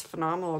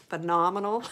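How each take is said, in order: First: PHENOMENAL slightly slurred, syllables running together; slurred words. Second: PHENOMENAL said on its own, each syllable distinct; re-say "phenomenal" clearly to fix the slur; careful re-pronunciation. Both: Real, not acted. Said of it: "I sound like I'm slurring my words".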